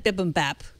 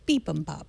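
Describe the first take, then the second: First: The first syllable has a short 'i' vowel. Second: The first syllable has a long 'ee' vowel. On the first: The speaker calls it wrong. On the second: The speaker calls it right.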